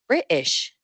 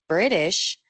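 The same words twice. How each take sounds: First: The t is replaced by a catch in the throat. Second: The t is released with a puff of air. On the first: "escucharán British" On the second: "en vez del British de los Estados Unidos"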